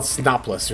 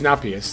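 First: The name is said with an 'l' sound. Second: The name is said with an 'i' sound. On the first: The speaker calls it wrong. "I always think the I is an L. I would call it Snopless or something" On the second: The speaker calls it right. "but it's Snopius"

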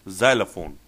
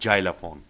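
First: The word begins with a 'z' sound. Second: The word does not begin with a 'z' sound. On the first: The speaker calls it right. "It's always Z" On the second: The speaker calls it wrong. "and not xylophone"

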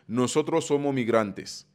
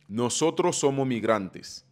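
First: The s sounds are dropped, Dominican style. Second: The same.

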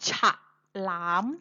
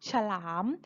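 First: The first vowel is said full and clear. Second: The first vowel is said only briefly, half-sounded. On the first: The speaker calls it wrong. "เราไม่ออกเสียงว่าฉะหลาม" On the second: The speaker calls it right. "สระอะเราออกนิดเดียว"

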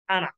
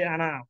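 First: The final vowel is kept short. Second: The final vowel is drawn out long. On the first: The speaker calls it right. "This alif silent. Only say Anna" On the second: The speaker calls it wrong. "not allowed to say ana"

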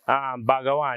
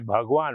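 First: The word is said with three syllables. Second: The word is said with two syllables. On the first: The speaker calls it wrong. "instead of you say Bhagawan" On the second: The speaker calls it right. "you say Bhagwan, which is God"

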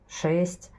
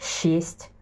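First: It begins with a hard sh sound. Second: It begins with a soft, long shch sound. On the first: The speaker calls it right. "Мы же говорим" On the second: The speaker calls it wrong. "но мы же не говорим шесть"

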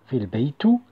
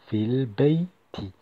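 First: The last word ends with an oo vowel. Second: The last word ends with an ee vowel. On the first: The speaker calls it wrong. "On ne dit pas fil bey tout" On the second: The speaker calls it right. "on dit fil bey ti"

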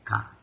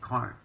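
First: The R sound after the vowel is dropped. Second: The R sound after the vowel is pronounced. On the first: "you say cot" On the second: "instead of saying cart"

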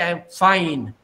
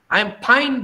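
First: Fine begins with an f sound. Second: Fine begins with a p sound. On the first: The speaker calls it right. "They can't say" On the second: The speaker calls it wrong. "they say"

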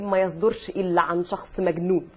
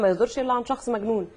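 First: Said pressing heavily on the words, posh accent. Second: Said plainly in ordinary everyday speech. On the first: The speaker calls it right. "لا تقول ... في كده يدوسوا على الكلام" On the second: The speaker calls it wrong. "مش"

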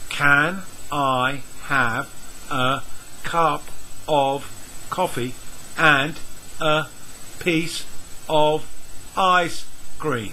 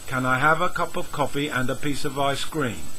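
First: Each word is said separately at a slower pace. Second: Words are linked together at a quicker pace. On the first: "I will read the sentence and not link any of the words" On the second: "use the links. Notice the quicker speed and the linked words"

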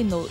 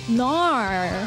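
First: The vowel is a plain rounded 'oh' sound. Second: The vowel is an open, unrounded 'ar' sound. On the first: "you don't say no" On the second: "NAR is actually an accent from Australia"

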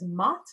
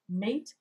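First: The vowel is an open 'ah' sound. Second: The vowel is an 'ay' sound. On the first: This is how it sounded in Chaucer's time. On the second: This is the modern pronunciation.

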